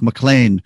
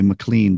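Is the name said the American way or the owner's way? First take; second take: owner's; American. First: The name is said the way its owner says it. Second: The name is said the common American way. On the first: The speaker calls it right. "but it's McLean" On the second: The speaker calls it wrong. "Some of us Americans would say McLean"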